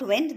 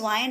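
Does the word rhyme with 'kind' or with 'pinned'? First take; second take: pinned; kind. First: The vowel is a short 'i' sound. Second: The vowel is a long 'eye' sound. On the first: Moving air. "Is not विंड" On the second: To roll something back onto a spool. "This वाइंड is not विंड"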